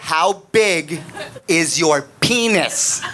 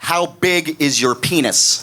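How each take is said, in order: First: It is said very slowly. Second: It is said at a normal speed.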